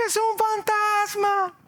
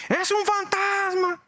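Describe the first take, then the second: First: High, slow, frightened shout of a ghost; terrified cry. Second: High, slow, frightened shout of a ghost again; retelling the disciples' scream to the congregation; terrified cry. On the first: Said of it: "gritaron, clamaron". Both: Acted.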